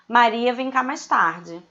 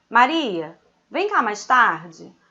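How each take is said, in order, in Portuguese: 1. Continua sem pausa depois de Maria. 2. Há uma pausa logo depois de Maria. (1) "Se eu retiro a vírgula, ele vira sujeito desse verbo vir" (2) "eu vou te chamar de Maria, tá?"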